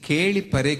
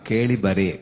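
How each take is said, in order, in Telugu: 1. రెండో పదం p ధ్వనితో మొదలవుతుంది. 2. రెండో పదం b ధ్వనితో మొదలవుతుంది. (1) "కేళి పరే కాదమ్మా" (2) "అది పా బా కొంత తేడా ఉంది"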